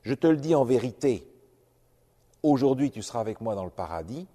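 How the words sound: The pause comes before 'aujourd'hui'.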